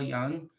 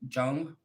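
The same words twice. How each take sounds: First: The name starts with a Y sound. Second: The name starts with a J sound. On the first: "I always say Carl Jung. ... I don't pronounce the J. It's like a it's a yay" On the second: "They call him Jung"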